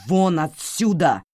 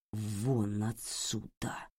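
First: Slow, much louder shout. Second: Slow, much softer; barely audible fury; very quiet. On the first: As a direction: roar it out in fury. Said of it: "Таким взбешённым его никто ещё не видел". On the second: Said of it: "Это было произнесено так тихо". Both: Acted.

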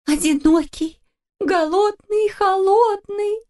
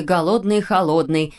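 First: High, slow, wavering "голодный и холодный" on the verge of crying; mama echoing the words, starting to cry; tearful. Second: Said in the usual way. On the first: A narrator's reading. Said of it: "повторила мама мумитроля и расплакалась". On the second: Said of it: "прочла вслух".

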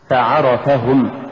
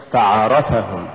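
First: فعرفهم slow, ف set apart and ع pushed; push after fa. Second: فعرفهم run together, no push on ع; wrong stress. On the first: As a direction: lean on عرفهم after a light ف in فعرفهم. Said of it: "قل". (نطق فعرفهم بدفع العين بعد الفاء) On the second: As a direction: say فعرفهم quicker as one word. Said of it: "ولا تقل". (نطق فعرفهم دون دفع العين) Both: Shown as a demonstration.

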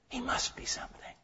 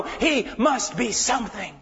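First: "He must be something" breathed as a soft whisper; whispered echo. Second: Said in the usual way. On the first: Shown as a demonstration. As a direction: drop to a hushed whisper of awe. Repeated line, then whispered echo.

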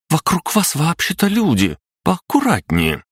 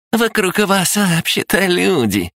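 First: Высокий возмущённый вскрик девушки; резко, с обидой, выше обычного; возмущённо. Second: Передразнивая: пискляво, высоко, медленно; кривляясь, тонким голоском; писклявый голос. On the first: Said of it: "и возмутилась". (возмущённый девичий голос) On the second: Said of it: "писклявым голосом". (писклявое передразнивание) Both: Acted.

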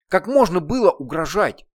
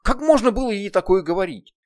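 First: Loud stress on можно, falling; angry reproach. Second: High, loud stress on можно; angry reproach. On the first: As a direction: press можно again in anger. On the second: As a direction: lean hard on можно in anger. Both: Acted. Heroine berates demon.

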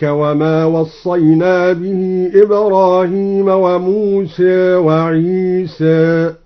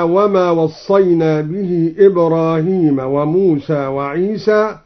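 First: Slow recitation, موسى and عيسى ending between a and e; موسى and عيسى with half-tilted final vowels; taqlil. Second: Said in the usual way. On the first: Shown as a demonstration. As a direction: chant slowly, saying موسى as musè, عيسى as isè. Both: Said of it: "بالتقليل".

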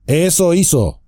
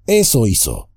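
First: Higher, sudden echo of the innkeeper's words; Strider cutting in. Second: Said in the usual way. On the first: Acted. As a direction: snap his words back at him. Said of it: "dijo Trancos de pronto".

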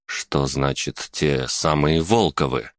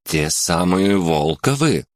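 First: Slow, lower, puzzled frown; frowning question. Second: Said in the usual way. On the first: A narrator's reading. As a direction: ask it with a suspicious frown. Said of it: "нахмурился я".

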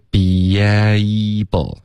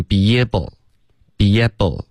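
First: "able" with a long gliding ay, held out; full diphthong. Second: "able" with a short flat eh, be-yeb-ble; wrong short vowel. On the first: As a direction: slowly stretch the ay in "able". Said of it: "注意这个able的双元音". (“able”双元音拉长、滑动) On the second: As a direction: mispronounce "able" without the ay glide. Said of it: "千万别发成". (故意把“able”读成短音“耶”) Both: Shown as a demonstration.

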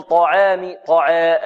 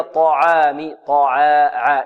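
First: "طعام" with the long aa tilted towards 'ay'; thin the vowel of "طعا" into a fronted 'eh'; taqleel, tilted vowel. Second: "طعام" with heavy T and plain open 'aa'; correct open fatha. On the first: Teacher showing the error to avoid, tilted fronted aa. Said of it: "هذه تقليل". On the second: Teacher giving students the correct form, open light aa. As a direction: open the aa in "طعا" fully, untilted. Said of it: "وإنما هي". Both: Shown as a demonstration.

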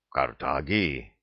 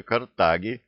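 First: Low, slow, stunned echo; dumbfounded. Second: Said in the usual way. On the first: A narrator's reading. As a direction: repeat the word slowly in a low, stunned voice. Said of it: "повторил ошеломлённый до зубной боли старейшина". (ошеломлённо, низко и медленно)

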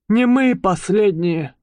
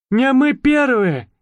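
First: Мы stressed again, falling. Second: Мы stressed, slow and high. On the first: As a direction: lean on мы in «не мы и последние». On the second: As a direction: lean on мы in «Не мы первые». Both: Acted. Mouse sums up. (ударение на «мы»)

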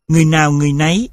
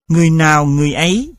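First: Người nào người nấy with an n before the vowel of nấy; with the added n sound. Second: Người nào người ấy with a bare vowel on ấy; without the added sound. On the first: Teacher demonstrating the form with the added sound, n-initial. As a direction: put a clear n at the start of nấy. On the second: Teacher demonstrating the form before the added sound, plain. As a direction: say ấy with no n at the start. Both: Shown as a demonstration. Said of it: "hiện tượng thêm âm".

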